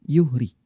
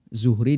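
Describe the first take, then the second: First: The name begins with a Y sound. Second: The name begins with a Z sound. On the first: The speaker calls it wrong. "dibaca Yuhri" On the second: The speaker calls it right. "Zuhri dibaca Yuhri"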